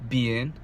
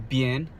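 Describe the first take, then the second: The two takes are said the same way.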